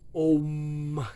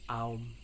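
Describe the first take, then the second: First: The vowel is a single plain o sound. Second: The vowel glides from ah to oo. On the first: The speaker calls it wrong. "it's not right" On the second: The speaker calls it right. "It's Aum"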